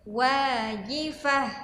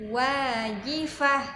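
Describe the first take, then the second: No difference in how they are said.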